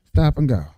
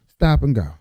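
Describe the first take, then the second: No difference in how they are said.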